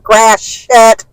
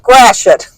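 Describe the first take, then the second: First: The word is said in a calm, plain way. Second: The word is said angrily, like a curse. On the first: It just names the street. "we live near Gratiot" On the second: It is meant as a swear word. "if they were mad or something"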